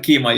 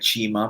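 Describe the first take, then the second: First: The name starts with a k sound. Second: The name starts with a ch sound. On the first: This is the usual company pronunciation. "so we call it Kima" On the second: This is how it is said in China. "in China, we call it Chima because it's Q I means chi in China"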